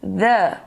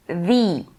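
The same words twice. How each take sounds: First: "The" as "thuh", tongue tip on the teeth; TH blown. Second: "the" as "thee", tongue tip on the teeth; TH blown. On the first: English teacher showing tongue-to-teeth th, "The" said "thuh". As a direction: blow the th in "The", short neutral vowel. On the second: English teacher showing tongue-to-teeth th, "the" said "thee". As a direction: blow the th in "the", long ee vowel. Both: Shown as a demonstration. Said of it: "pra fazer esse som soprado".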